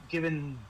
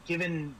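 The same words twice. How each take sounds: The two takes are said the same way.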